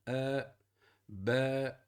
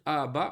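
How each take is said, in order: First: The first vowel leans toward an 'e' sound. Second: The first vowel is a clear open 'a'. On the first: The speaker calls it right. "on va dire" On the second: The speaker calls it wrong. "on va pas dire"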